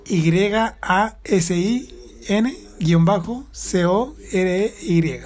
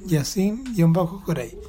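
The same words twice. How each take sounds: First: Each letter spelled out slowly; letter by letter, slow and clear; spelling it out. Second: Said in the usual way. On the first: Shown as a demonstration. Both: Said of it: "Deletréalo".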